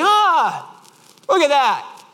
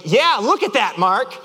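First: Imitated friend's high, cheerful marveling; high, untroubled exclamation; Mark. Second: Mock-exasperated agreement; irritated echo. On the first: Friend admiring the dented bumper, imitated cheerful wonder. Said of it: "And Mark's like". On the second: Driver answering his too-positive friend, irritated echo. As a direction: throw the friend's words back at him. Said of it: "I'm like".

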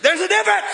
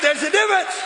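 First: Loud, high, bold declaration; bold shout. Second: Shouted. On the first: Preacher modeling a bold shout for the crowd. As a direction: belt it out boldly. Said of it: "You gotta get bold like that". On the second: Preacher showing the crowd how to shout it. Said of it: "You gotta shout it like I'm preaching it". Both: Shown as a demonstration.

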